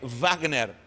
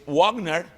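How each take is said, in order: First: It begins with a V sound. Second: It begins with a W sound. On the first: This is the German way of saying it. "em alemão é Wagner" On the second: This is the English way of saying it. "em inglês, Wagner. Em inglês é U"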